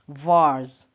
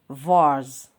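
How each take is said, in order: The two takes are said the same way.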